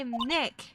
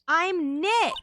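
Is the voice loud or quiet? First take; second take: quiet; loud. First: It is said at a quiet, normal volume. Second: It is said loudly, almost shouted.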